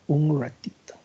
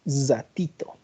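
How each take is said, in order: First: The R is said the Cochabamba way. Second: The R is much stronger, with a hissing sound. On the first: "¿Cómo pronuncia la R?" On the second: "¿Cómo pronuncia la R el paseño? ... Es mucho más pronunciada"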